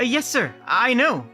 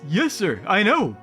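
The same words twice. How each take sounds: First: It is said in a mismatched voice. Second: It is said in the character's voice.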